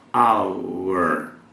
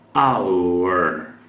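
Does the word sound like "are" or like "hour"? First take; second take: hour; hour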